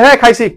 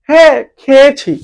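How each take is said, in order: First: It uses the clipped colloquial dialect form. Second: It uses the full standard educated form. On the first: Ordinary everyday speakers say it this way. "আমরা বলি" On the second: Educated or elite speakers say it this way. "যারা একটু elite, যারা একটু শিক্ষিত, তারা কি বলবে?"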